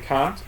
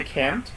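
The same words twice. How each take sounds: First: It is said with a British accent. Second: It is said with an American accent.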